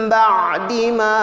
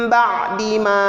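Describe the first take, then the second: Both takes have the same delivery.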